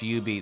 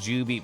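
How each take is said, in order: First: The name begins with a Y sound. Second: The name begins with a J sound. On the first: The speaker calls it right. "I've been told that it's U-Beat" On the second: The speaker calls it wrong.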